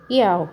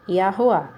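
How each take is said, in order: First: The middle h sound is left out. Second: The middle h sound is clearly pronounced. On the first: The speaker calls it wrong. "as pessoas estão pronunciando como? Iau, mas não é Iau que pronuncia não" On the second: The speaker calls it right. "Sem sinal maçorético, a pronúncia é Yahuá"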